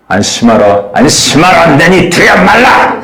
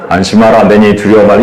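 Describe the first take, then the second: First: Firm and urgent, rising at 말라; stern warning. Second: Encouraging. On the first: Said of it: "야곱 워닝". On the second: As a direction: soothe frightened disciples gently. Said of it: "격려". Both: Shown as a demonstration.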